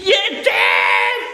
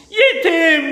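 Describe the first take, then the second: First: Low, loud shouted word. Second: Laughing. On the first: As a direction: bellow the word Yetim. Shouted repeat. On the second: Playful wordplay. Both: Real, not acted.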